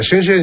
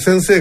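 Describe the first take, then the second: First: The word begins with an sh sound. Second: The word begins with a plain s sound. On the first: "あのサシスセソが言えない" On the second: "先生がシェンシェンになりますから"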